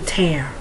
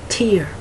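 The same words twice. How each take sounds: First: The vowel rhymes with 'air'. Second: The vowel rhymes with 'ear'. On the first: It is the verb, meaning to rip. "the primary part of speech is a verb" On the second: It is the noun, a drop from the eye. "the primary part of speech is a noun"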